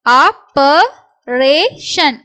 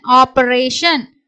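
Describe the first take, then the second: First: Slow syllables with gaps. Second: Said in the usual way. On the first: Shown as a demonstration. Teacher sounds out the next word, syllable by syllable. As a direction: break "operation" into separate beats.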